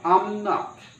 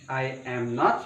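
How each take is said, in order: First: I am is contracted into one syllable. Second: I am is said as two full words. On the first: "I'm not ... Tone-nya jauh berbeda" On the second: "I am not sama I'm not"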